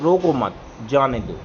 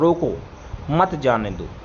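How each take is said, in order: First: There is a pause after मत. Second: There is a pause after रोको.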